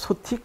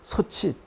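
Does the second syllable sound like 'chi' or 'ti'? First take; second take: ti; chi. First: The second syllable sounds like 'ti'. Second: The second syllable sounds like 'chi'. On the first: The speaker calls it wrong. "저 집 소티 크다라고 할 수 없잖아요" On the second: The speaker calls it right. "그래서 소치라고 발음하게 된 것이고요"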